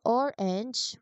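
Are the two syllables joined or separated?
separated. The two syllables are said separately. The speaker calls it wrong. "instead of saying orange"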